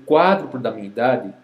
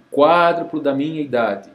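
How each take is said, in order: Both takes have the same delivery.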